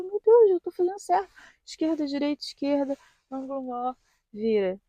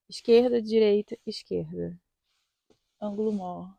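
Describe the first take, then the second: First: High, tense nervous voice reciting "esquerda, direita"; anxious self-talk. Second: Said in the usual way. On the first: Retold or imitated. Driver reassuring herself during the test, high and nervous. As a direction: chant the steps to herself in a rising panic. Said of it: "Eu ficava". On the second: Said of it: "e eu fazia, né".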